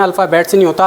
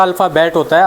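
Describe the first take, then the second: First: अल्फ़ाबेट्स said with a clear final s; wrong plural form. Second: अल्फ़ाबेट said with no s at the end; correct singular form. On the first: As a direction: stress the s at the end of अल्फ़ाबेट्स as the common mistake. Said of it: "कई लोग अल्फ़ाबेट्स बोल देते हैं". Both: Shown as a demonstration.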